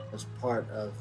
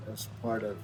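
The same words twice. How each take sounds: The two takes are said the same way.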